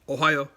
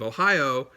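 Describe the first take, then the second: First: It is said with Japanese-style pronunciation. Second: It is said like the American state name. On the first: The speaker calls it right. "It's Ohio" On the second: The speaker calls it wrong. "It's not Ohio like the state of Ohio"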